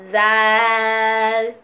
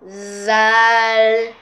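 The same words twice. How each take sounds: No difference in how they are said.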